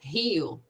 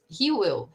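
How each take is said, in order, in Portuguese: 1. As palavras são contraídas em uma só sílaba. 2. As duas palavras são ditas por completo.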